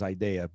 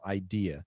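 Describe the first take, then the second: First: It is said with a Portuguese-influenced pronunciation. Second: It is said the English way, second syllable stressed. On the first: The speaker calls it wrong. "the most common mispronunciation that I hear is idea" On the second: The speaker calls it right. "the stress syllable is the second syllable"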